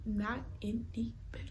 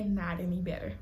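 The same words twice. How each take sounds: First: Hushed repeat for effect; soft, voiceless emphasis; emphatic whisper. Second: Said in the usual way. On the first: Real, not acted. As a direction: whisper it, each word spaced out.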